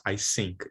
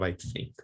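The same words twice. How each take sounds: First: "I sink" with an s sound in place of th. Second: "I think" with a soft th, tongue between teeth; correct th. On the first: Teacher demonstrating the Brazilian error: "I sink" with s. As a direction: say "sink" with a hissed s, not a th. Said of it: "many people do pronounce". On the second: Teacher showing the right form: "I think" with th. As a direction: give "think" a clear dental th. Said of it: "instead of". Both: Shown as a demonstration.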